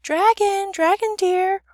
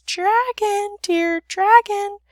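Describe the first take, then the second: First: High, sugary singsong call; sweet as honey, calling out. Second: Very high, thin little princess call; small voice drawn out high. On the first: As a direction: coax it out sweetly, loud and high. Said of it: "in a voice as sweet as honey and sugar cane". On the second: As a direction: coax in a small, high voice, slowly. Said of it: "said in a very small voice". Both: A narrator's reading.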